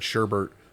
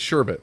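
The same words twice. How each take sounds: First: The last syllable has an added R sound. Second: The last syllable has no R sound. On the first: This is how the speaker and friends grew up saying it. The speaker calls it wrong. "I grew up calling it sherbet" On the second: This is the form the word really has. The speaker calls it right. "there's no second R"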